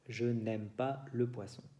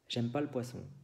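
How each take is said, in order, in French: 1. Un son 'n' vient avant 'aime'. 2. Aucun son 'n' ne vient avant 'aime'. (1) "es la frase normale" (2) "es el francés hablado"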